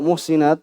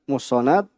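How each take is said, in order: First: The middle syllable has an 'i' vowel. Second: The middle syllable has an 'a' vowel. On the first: She is the one who guards herself from sin. "yaitu dengan dikasrah" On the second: She is the one guarded by God from sin. "kalau dibaca fathah ini bab faedah ya, apabila dibaca muhsanat"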